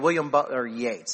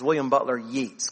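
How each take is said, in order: First: The surname is pronounced the standard, accepted way. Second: The surname is pronounced just as it is spelled. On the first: This is the checked, proper pronunciation. The speaker calls it right. "I did look it up, make sure I said it right" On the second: This is how someone from Texas would say it. The speaker calls it wrong. "if you're from Texas, ... that's totally the way it looks like when you spell it"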